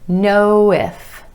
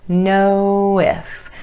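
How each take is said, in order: First: The words are linked with a gentle w sound. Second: The words are linked with a gentle w sound.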